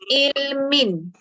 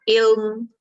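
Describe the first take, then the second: First: The word ends with the nasal ending -in. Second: The word stops short on a bare m. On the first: The reading continues without stopping. "perkataan yang tadi saya baca adalah ilmin" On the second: The reader stops on this word. "kita tak baca dia dari mik, matikan dia"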